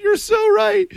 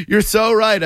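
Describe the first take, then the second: First: Sudden high shout of agreement; delighted yelp of agreement; excited shout. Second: Said in the usual way. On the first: Real, not acted. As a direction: burst out way up high, thrilled.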